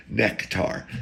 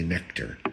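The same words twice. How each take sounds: First: "Nectar" with an open, full "tar" ending; neck-tar pronunciation. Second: Said in the usual way. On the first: Shown as a demonstration. Comedian demonstrating his own way, "Nectar" as "neck-tar". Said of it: "that's how I say nectar".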